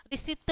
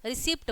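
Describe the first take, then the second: First: Put-on childlike lisped रिसिप्ट, final ट softened to त; lisping mispronunciation. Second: रिसिप्ट ending in a hard retroflex T; रिसिप्ट with a crisp English-style final T; correct pronunciation. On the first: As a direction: say रिसिप्ट with the tongue on the teeth for the final T. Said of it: "बोलेंगे तो कहेंगे तोतले हैं". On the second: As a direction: say रिसिप्ट with the tongue curled back on the final T. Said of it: "उसका उच्चारण रिसिप्ट बोलते हैं". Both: Shown as a demonstration.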